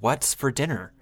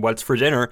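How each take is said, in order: First: It is asked in a deep, musing, philosophical tone. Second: It is asked as a plain, direct question.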